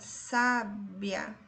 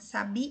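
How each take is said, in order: First: The stress is on the first syllable. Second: The stress is on the last syllable. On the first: "A penúltima sílaba é a tônica" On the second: "a sílaba tônica é a última"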